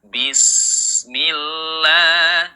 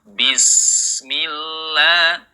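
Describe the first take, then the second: The two takes are said the same way.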